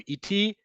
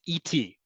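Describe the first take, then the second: First: Iti said higher, held out as the model word; pitched-up demo word. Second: Said in the usual way. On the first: Shown as a demonstration. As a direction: lift iti up to show the learners. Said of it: "Modern Hebrew". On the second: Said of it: "How do you say "with me" is".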